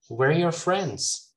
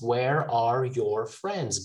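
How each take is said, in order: First: The small words are weak and reduced. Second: The small words are said fully.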